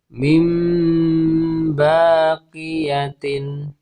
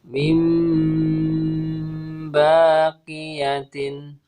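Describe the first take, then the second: Both takes have the same delivery.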